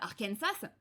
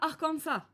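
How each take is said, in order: First: It is said the way most English speakers say it. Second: It is said the way local residents say it. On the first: This is how outsiders name the place. "quasiment tous les pays, tous les trucs anglophones, y compris l'Amérique du Nord, appellent ça" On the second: This is how people who live there name it. "les gens qui vivent sur place appellent ça"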